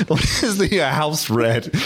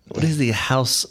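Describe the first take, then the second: First: Laughing attempt at a French accent; badly faked French accent. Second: Tentative mock French accent; attempted French accent. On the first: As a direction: have another go at French, hammed up. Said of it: "with a French accent". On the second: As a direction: try a French accent, not very well. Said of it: "I can't do a French accent".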